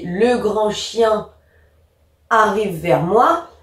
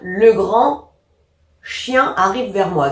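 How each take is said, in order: First: It is read without splitting words that belong together. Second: A pause splits words that belong together. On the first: The speaker calls it right. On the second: The speaker calls it wrong.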